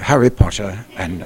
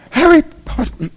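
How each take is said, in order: First: It is said in his ordinary natural voice. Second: It is said in an unnatural, put-on voice.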